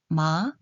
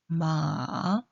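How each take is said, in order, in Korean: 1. 이 소리는 2성으로 발음합니다. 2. 이 소리는 3성으로 발음합니다. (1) "이" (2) "삼"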